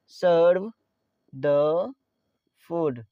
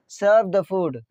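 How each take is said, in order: First: "Serve", pause, "the", pause, "food"; word by word. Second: Said in the usual way. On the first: Shown as a demonstration. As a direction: dictate "Serve the food" in isolated words, stepping down. Teacher repeats phrase word by word. ("Serve the food" एक-एक शब्द रुक-रुककर)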